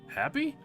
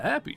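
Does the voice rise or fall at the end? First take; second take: rise; fall. First: It is said as a rising question. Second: It is said as a falling statement.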